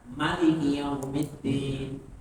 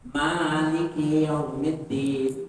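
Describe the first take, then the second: First: The first vowel of maliki is kept short. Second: The first vowel of maliki is drawn out long. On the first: "bacanya pendek" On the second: "membacanya panjang"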